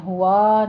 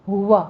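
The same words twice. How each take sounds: First: ہوا drawn out as "hoo-waa"; wrong stretched vowels. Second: ہوا as a short "hu-wa" with rounded lips; ہوا said crisply, no stretching; correct short vowels. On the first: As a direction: drag both vowels of ہوا too long. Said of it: "ہوا نہیں ہے". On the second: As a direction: keep both syllables of ہوا brief. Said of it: "بس ہونٹ گول کریں". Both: Shown as a demonstration.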